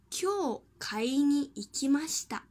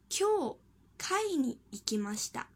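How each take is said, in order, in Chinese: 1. 'kai' 用的是 'buying' 的音调。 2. 'kai' 用的是 'meeting' 的音调。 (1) "今天去买了。" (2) "今天去参加集会了。音调不同"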